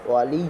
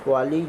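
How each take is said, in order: The two takes are said the same way.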